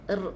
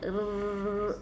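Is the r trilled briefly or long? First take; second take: brief; long. First: The r is trilled only slightly. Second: The r is trilled long and heavily. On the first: The speaker calls it right. "sikit saja r" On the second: The speaker calls it wrong. "tak boleh banyak sangat, jangan r, macam panggil ayam pula"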